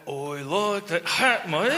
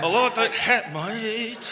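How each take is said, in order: First: Slow, lazy mock Aussie drawl; laid-back Australian. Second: Jaw-clenched mock Aussie, concentrating on vowels; clenched Australian. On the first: Host asked to sound laid back, slow mock Aussie. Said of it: "say that you like my hat in a laid back fashion". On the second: Host tries again, tense jaw-clenched Aussie accent. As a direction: force the Aussie vowels through a tight jaw. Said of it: "your jaw is clenched". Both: Shown as a demonstration.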